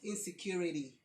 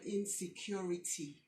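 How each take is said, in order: First: It is said in a put-on American accent. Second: It is said plainly in a Nigerian accent. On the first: The speaker calls it wrong. "not insecurity" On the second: The speaker calls it right. "Pronounce the word insecurity"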